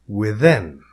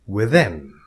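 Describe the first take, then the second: The two takes are said the same way.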